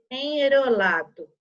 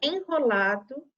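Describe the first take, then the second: First: Louder wrong reading of "enrolado", weak tapped R. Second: "Enrolado" with a guttural H-like R after the N; "Enrolado", its R said hard in the throat; strong R. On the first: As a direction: deliberately misread "enrolado" with the R flapped like in "caro". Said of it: "Eu nunca poderia ler". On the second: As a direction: read "Enrolado" correctly as en-holado. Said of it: "Som forte". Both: Shown as a demonstration.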